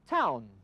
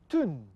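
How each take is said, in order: First: It is said in an English accent. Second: It is said in a Scottish accent. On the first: "They would also say" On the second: "We say"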